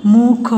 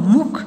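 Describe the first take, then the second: First: मुख slow, sound by sound; syllable by syllable. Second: Said in the usual way. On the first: Shown as a demonstration. (मुख को तोड़ कर, धीरे) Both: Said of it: "फिर ये सारे बोलने".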